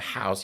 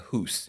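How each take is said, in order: First: The vowel is the standard 'ow' sound. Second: The vowel is a Scottish 'oo' sound.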